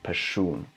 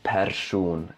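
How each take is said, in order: First: The r and s merge into one retroflex sh. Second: A separate r is sounded before a plain s. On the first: The speaker calls it right. "R och S smälter samman och blir till ett retroflext S" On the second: The speaker calls it wrong. "man säger alltså inte person"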